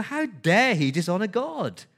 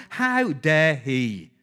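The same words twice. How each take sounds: First: Higher, punchy outraged question; indignant How dare he; indignant outrage. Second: How dare he drawn out very slowly and heavily; slow, weighty How dare he; slow emphatic How dare he. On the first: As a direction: let the outrage peak on How. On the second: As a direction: lean on every word of How dare he. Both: Acted. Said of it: "That's the tone there".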